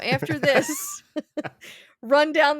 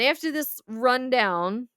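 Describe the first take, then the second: First: There is a pause after "this". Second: It runs on with no pause after "this". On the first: It tells the player to run down the street. The speaker calls it right. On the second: It refers to a summary just given. The speaker calls it wrong.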